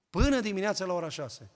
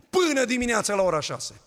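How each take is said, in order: First: Said in the usual way. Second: Louder, higher punch on "Până"; emphatic loud take. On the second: Shown as a demonstration. Pastor marveling to the church, loud emphatic. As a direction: hammer home how long they prayed.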